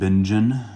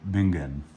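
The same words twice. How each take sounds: First: The name is said with American pronunciation. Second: The name is said with German pronunciation. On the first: "my Americanism wants to call that" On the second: "I did actually look up the pronunciation of this one"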